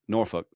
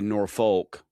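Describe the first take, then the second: First: It is said with an English pronunciation. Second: It is said with a common everyday pronunciation. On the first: "in England they say Norfolk" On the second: "which you would say Norfolk"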